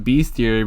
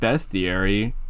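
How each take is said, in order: First: The first syllable sounds like 'beast'. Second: The first syllable sounds like 'best'. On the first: The speaker calls it wrong. "I always pronounce it as bestiary" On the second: The speaker calls it right. "but it's just bestiary"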